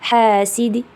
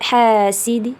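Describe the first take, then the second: No difference in how they are said.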